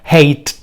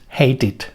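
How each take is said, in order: First: The ending is a plain t sound, no extra syllable. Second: The ending adds an extra 'id' syllable. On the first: The speaker calls it wrong. "yo quiero pronunciarlo la ed con otra t, sería hate. Complicadísimo" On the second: The speaker calls it right. "no va a ser de ninguna de estas dos columnas, sino será de la última"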